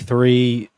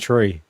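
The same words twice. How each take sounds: First: It is said in a Welsh accent. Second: It is said in an Irish accent. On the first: "Like the Welsh say" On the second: "It's only the Irish people that say three"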